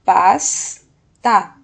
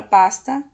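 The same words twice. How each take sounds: First: PASTA as a loud PAS, pause, TA; two separate, emphatic beats on PASTA; syllable by syllable. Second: Said in the usual way. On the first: Shown as a demonstration. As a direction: break PASTA after a held S. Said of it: "mas o final da sílaba". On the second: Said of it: "porque tem duas sílabas".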